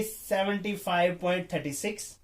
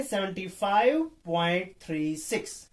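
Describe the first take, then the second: First: "थर्टी सिक्स" run together as one number; demonstrating the wrong "थर्टी सिक्स" reading. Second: "थ्री सिक्स" as two separate digits; measured model reading, "थ्री" then "सिक्स" digit by digit; teacher modelling "थ्री सिक्स" as single digits; correct number reading. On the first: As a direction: read the decimals as "थर्टी सिक्स", a mistake to avoid. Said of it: "ये गलत है". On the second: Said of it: "ये सही है". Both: Shown as a demonstration.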